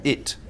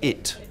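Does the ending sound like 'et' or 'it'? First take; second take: it; it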